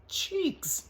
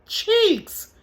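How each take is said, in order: First: High, soft imitation of delight; super happy. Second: Very high-pitched startled echo; mom's startled reaction. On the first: Imitating son happy about what he saw, delighted. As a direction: savor it in a high, small voice. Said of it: "super happy about seeing". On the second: Retold or imitated. Mother echoing her son's news on the phone, startled. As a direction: squeal it back in mock disbelief. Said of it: "now here go me".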